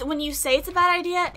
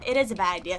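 First: Said in the usual way. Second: "is" punched, lower, as in "it IS a bad idea"; stress on IS. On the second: Shown as a demonstration. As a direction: lean on "is" to insist.

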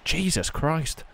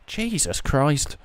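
First: Said in the usual way. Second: Slow drawn-out disbelief. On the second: Real, not acted. Gamer repeats reaction, drawn out.

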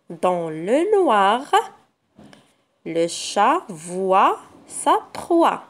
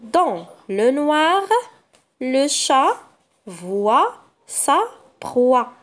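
First: Slow, with "noir", "voit" and "proie" leaned on; reread, pressing every wa sound; slow reading, stressing wa. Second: Slow, careful reading for pupils; slow sentence reading. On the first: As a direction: hit each wa sound as you read. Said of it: "combien de fois le son wa". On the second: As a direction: read slowly, word by word. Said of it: "La première phrase". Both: Shown as a demonstration.

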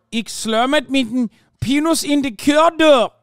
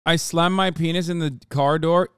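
First: Exaggerated Dutch accent, higher and louder; mock Dutch accent. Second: Said in the usual way. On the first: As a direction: ham up a fake Dutch accent. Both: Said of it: "You did a perfect Dutch accent".

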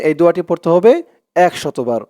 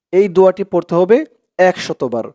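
The two takes are said the same way.

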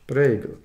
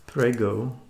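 First: A loud, hammed-up bad Italian accent on Prego. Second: Said in the usual way. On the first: Showing the sauce jar, mocks a bad Italian accent. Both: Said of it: "with a bad Italian accent".

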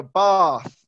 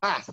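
First: "bath" with a long "ah", slow and drawn out; southern "bahth" for "bath"; southern English vowel. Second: "bath" with a short "a" as in cat; quick short-vowel "bath", rhyming with math; northern English vowel. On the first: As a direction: say "bath" as "bahth", London style. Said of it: "I pronounce it like this". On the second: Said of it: "they pronounce it like this". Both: Shown as a demonstration.

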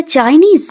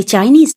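First: Mother yells out in alarm; lightly voiced mock shout. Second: A surprised question with a rising end; shocked to see Chinese food at home; mild surprised rise. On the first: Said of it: "Indira চিৎকার করে বলে". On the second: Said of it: "তারা তো বাড়িতে ঢুকে অবাক হয়ে যায়". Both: A narrator's reading.

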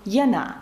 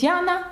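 First: "Яна" stressed on the last syllable, ya-NA; French final stress. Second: Said in the usual way. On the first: Shown as a demonstration. Teacher showing how the French say the name, ya-NA. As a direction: shift the stress to the end of "Яна". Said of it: "вас будуть називати". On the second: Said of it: "наголос на останній склад".

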